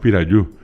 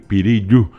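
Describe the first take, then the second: First: The second syllable has the vowel a. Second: The second syllable has the vowel i. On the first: This is how the place is named today. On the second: This is the older form of the place name.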